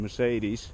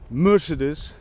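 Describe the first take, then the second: First: It is said the usual English way. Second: It is said the local Bulgarian way.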